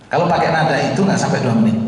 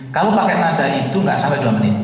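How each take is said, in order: No difference in how they are said.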